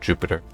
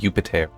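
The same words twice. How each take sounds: First: The word begins with a J sound. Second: The word begins with a Y sound. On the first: The speaker calls it wrong. "not Jupiter, because there's no J sound in Latin" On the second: The speaker calls it right. "it um would have been Jupiter"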